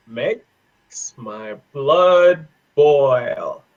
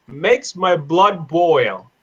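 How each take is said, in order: First: Very slow, drawn-out words; word by word, extremely slowly; slow dictation. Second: Said in the usual way. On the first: Shown as a demonstration. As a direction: stretch out each word as if dictating.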